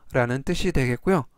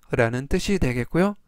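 No difference in how they are said.

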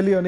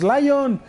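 First: Said in the usual way. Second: "Lion" said as English LAI-on, two syllables, higher; mock English "Lion"; English-style Lion. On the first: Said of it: "en vez de Leon". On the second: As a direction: say "Lion" like the English word instead of León. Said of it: "así como dice Jesus".

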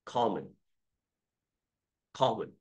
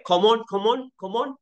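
First: "common" with a reduced, light second "o"; slow, lower "common", falling away at the end; carefully weaken the end of "common"; model pronunciation. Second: Quick, high "Common" with a full second "o"; mock misread "common", end not reduced; wrong pronunciation. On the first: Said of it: "这O是呃". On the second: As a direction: give both syllables of "common" equal weight, rising. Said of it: "可不可以念". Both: Shown as a demonstration.

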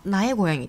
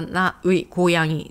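First: なえこやぎ with うい merged into one え sound; contracted ウイ. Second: Said in the usual way. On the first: Shown as a demonstration. Teacher showing how Koreans shorten it, なえこやぎ with contracted ウイ. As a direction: say なえこやぎ, running な straight into え. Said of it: "韓国人はなえこやぎと言いますね". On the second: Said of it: "これ本来ならば".

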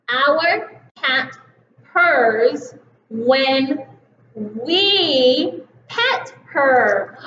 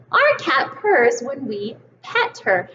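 First: We pet her said very slowly; slow reading. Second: Said in the usual way. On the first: Shown as a demonstration. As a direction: read each word slowly. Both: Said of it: "will you read it with me".

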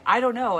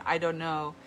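First: A brief, strong "I don't know" from mom, higher and louder; mom's strong answer. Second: Said in the usual way. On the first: Retold or imitated. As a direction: give mom's answer with a strong, lively ring.

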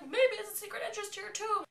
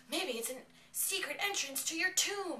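First: Very high, loud put-on shout; top-of-the-range exaggerated repeat; mock loud relay. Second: High, loud put-on voice; pitched up and pushed, playful imitation; mock prompting. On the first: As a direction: imitate someone loudly passing on a hint. [name] repeats the prompt, escalating. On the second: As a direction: retell it as a raised, insistent hint. Retold prompt relayed by [name].

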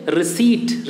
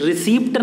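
First: रिसीट as "ri-SEET"; correct receipt, silent p. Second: रिसीप्ट as "ri-SEEPT", higher; wrong receipt, p sounded. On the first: Teacher models for pupils, रिसीट as "ri-SEET". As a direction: leave the p out of रिसीट. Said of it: "क्या है ये". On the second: Teacher rejects the mistake, रिसीप्ट as "ri-SEEPT". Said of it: "नहीं होता है". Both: Shown as a demonstration.

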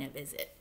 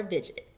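First: "a visit." said properly with a z sound; corrected pronunciation. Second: "visit." misread as "vidgit", rhyming with Fidget. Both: Shown as a demonstration. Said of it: "I mean a visit".

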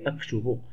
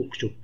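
First: أكتب said aktubu, opening on a and ending on u; corrected reading. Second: أكتب said uktub, opening on u; misread as imperative. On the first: Teacher correcting the misreading, أكتب as aktubu. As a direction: read أكتب with a fatha, as aktubu. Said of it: "بل هي أكتب". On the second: Teacher quoting their own misreading, أكتب as uktub. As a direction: read أكتب with a damma, as uktub. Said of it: "قرأتها أك". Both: Shown as a demonstration.

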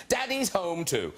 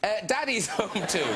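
First: Slow, deliberate Daddy's Home Two; careful title. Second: Said in the usual way. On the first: Shown as a demonstration. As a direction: spell out Daddy's Home Two slowly and clearly. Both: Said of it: "I should at least get the name right".

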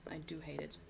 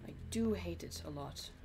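First: Breathy whispered aside; whispering. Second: Said in the usual way. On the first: Real, not acted. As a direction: whisper it to yourself. Whispered repeat of complaint.

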